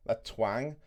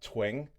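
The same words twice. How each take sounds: First: Said in the usual way. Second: "twang" in a rough Irish accent, vowel nearing "twing". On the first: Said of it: "you get what I mean". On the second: Shown as a demonstration. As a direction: say "twang" slowly with an Irish lilt. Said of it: "I apologise for my bad accent".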